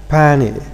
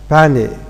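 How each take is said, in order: First: The t after n is left out. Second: The same.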